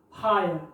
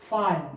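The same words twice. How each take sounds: First: फायर repeated in a quick list, ending "ayer"; English word demo. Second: फायर said as the English word fire, ending in "ayer"; English word demo. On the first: Teacher repeats फायर for the class. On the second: Teacher pronounces फायर slowly for students. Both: Shown as a demonstration. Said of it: "ये उच्चारण है आयर".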